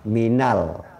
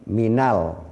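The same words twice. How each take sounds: No difference in how they are said.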